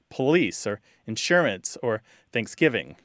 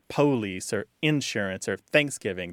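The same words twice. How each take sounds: First: The words use the newer, more common pronunciation. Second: The words use the older, fading regional pronunciation. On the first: This is how younger people tend to say it. "They're more likely to say" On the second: This is how older people tend to say it. "those pronunciations are slowly disappearing, and you know, the younger generations don't tend to say things like"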